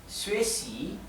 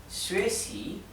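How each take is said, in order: The two takes are said the same way.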